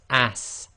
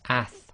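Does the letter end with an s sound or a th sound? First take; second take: s; th. First: It ends with a hissing s sound. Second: It ends with a soft th sound. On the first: The speaker calls it wrong. "countries where they might pronounce this as ass, and it's not a sa sound" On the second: The speaker calls it right. "it's a th sound, so it's ath as in the word athletic"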